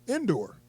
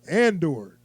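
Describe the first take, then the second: First: The name begins with an 'in' sound. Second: The name begins with an 'an' sound. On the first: The speaker calls it wrong. "I remember them saying it was Indoor" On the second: The speaker calls it right. "That's how you say it"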